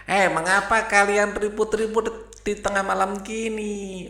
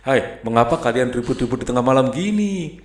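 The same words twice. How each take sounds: First: High owl voice scolding. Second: Said in the usual way. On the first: Acted. Owl scolds the noisy hens at midnight, high-pitched. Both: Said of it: "ini yang ngomong burung hantu ya".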